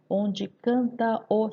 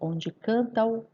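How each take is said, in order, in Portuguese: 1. As vogais finais de canta e o ficam separadas. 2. As vogais finais de canta e o se juntam. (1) "eu não vou recitar o verso" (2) "Eu falo onde canta o"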